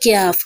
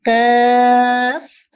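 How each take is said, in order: First: The k glides into a y-sound. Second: The k has no y-sound after it. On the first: The speaker calls it wrong. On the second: The speaker calls it right.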